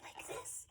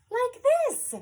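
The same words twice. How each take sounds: First: Soft whisper; tiny beetle hello. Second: Loud, high, bouncy announcement; loud dog hello. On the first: Reader introduces a beetle's hello, whispered. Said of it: "A beetle hello is tiny". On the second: Reader introduces a dog's hello, loud and high. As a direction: belt it out high for a noisy dog. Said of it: "is licky and loud". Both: Acted.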